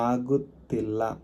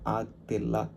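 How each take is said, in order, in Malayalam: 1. ഈ വാക്ക് അതിന്റെ പൂർണ്ണ രൂപത്തിലാണ് പറയുന്നത്. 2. ഈ വാക്ക് ചുരുക്കിയ രൂപത്തിലാണ് പറയുന്നത്.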